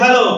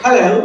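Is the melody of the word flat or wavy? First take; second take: flat; wavy. First: It is said with a flat melody. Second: It is said with a wavy, rising-falling melody. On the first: This is how Bengali speakers say it. "আমরা যদি বলি হ্যালো" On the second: This is how English speakers say it. "ইংলিশরা বলে হ্যালো"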